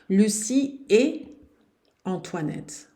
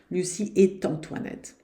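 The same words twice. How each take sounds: First: No t sound joins et to Antoinette. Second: A t sound joins et to Antoinette. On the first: The speaker calls it right. "liaison interdite" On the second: The speaker calls it wrong. "Não posso dizer de jeito nenhum"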